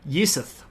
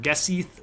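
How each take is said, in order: First: The word begins with a Y sound. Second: The word begins with a hard G sound. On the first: The speaker calls it right. "but it's Yisith" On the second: The speaker calls it wrong. "how we would want to pronounce that"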